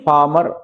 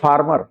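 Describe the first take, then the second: First: The r after the vowel is silent. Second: The r after the vowel is pronounced. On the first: The speaker calls it right. "Vowel के बाद आर silent रहता है" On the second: The speaker calls it wrong. "इसको हम लोग बोल जाते हैं फार्मर"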